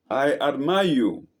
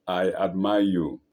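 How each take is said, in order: First: Mild scream. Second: Lower, subdued mountain echo; echoed answer. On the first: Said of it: "he screams to the mountain". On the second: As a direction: give the call back lower, like an echo. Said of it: "The voice answers". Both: A narrator's reading.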